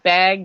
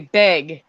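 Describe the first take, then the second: First: The vowel sounds like the one in cat. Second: The vowel sounds like the one in bed. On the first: This is the usual way the speaker says it. "instead of like bag B A G" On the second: This is how people in North Dakota say it. "She would say "beg," like B E G"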